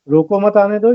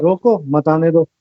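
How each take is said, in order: First: "रोको मत आने दो" run together, rising on दो; phrasing demo. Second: Slow "रोको", a break, then "मत आने दो"; pause after रोको. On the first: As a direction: say "रोको मत आने दो" without a break after रोको, voice lifting at the end. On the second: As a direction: set "रोको" apart as its own command, then say "मत आने दो" slowly. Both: Shown as a demonstration. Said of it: "सिर्फ लहजा बताएगा कि आपने कहा है".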